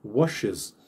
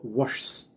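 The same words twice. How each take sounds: First: Washes in two syllables ending wosh-iz; correct washes. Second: Washes squashed into one syllable, wash-s with no vowel; wrong one-syllable washes. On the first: Teacher showing students the right way: washes as wosh-iz. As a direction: give washes its full second syllable iz. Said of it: "Nem é até ruim de falar". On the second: Teacher showing students the wrong way: washes as one syllable. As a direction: say washes as a single clipped syllable. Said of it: "Ao invés de falar só washes". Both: Shown as a demonstration.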